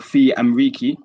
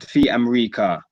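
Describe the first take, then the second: First: The last word ends in an 'i' vowel. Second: The last word ends in an 'a' vowel. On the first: The speaker calls it wrong. "we don't say" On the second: The speaker calls it right. "We say"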